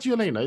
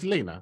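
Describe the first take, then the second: First: The name begins with a 'y' sound. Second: The name begins without a 'y' sound. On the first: The speaker calls it wrong. "It's not" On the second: The speaker calls it right. "What happened to the Y?"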